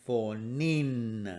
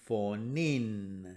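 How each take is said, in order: No difference in how they are said.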